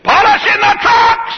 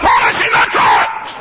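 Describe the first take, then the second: First: Slow, high, shouted Polishing the trucks; mock shout of the fire chief; hammed-up shouted answer. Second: Slow, much lower, loud Polishing the trucks; mock stubborn shout, lower; low shouted answer. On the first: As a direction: yell it back like a proud fool. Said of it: "He said". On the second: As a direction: bark it back stubbornly. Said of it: "I said".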